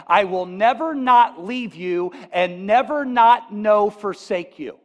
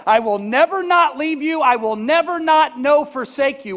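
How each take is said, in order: First: "never not" and "not no" said slowly, each "not" stressed; slow, careful word-for-word reading; slow literal reading. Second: Loud, high "I will never not leave you", "not" hit hard; loud preached promise of Jesus; emphatic proclamation. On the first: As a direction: spell out "I will never not leave you" word by word, slow and deliberate. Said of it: "it would say this". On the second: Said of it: "Jesus said". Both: Shown as a demonstration.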